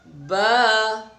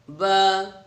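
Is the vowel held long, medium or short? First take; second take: medium; short. First: The vowel is held for two beats. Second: The vowel is held for one beat. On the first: The speaker calls it right. "Bacanya dua ketukan ya" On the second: The speaker calls it wrong. "itu satu"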